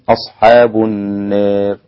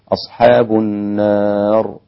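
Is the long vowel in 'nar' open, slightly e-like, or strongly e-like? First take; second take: slightly e-like; open. First: The long vowel leans slightly toward e. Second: The long vowel is a fully open a. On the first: "فبالتقليل ستكون" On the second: "هكذا بالفتح"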